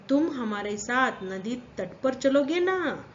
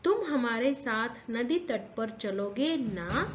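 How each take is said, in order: First: ना at the end stressed, falling tune; teacher demo leaning on ना. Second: Said in the usual way. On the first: Shown as a demonstration. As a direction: press the closing ना firmly. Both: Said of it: "ना के ऊपर प- हम जोर डाल रहे हैं".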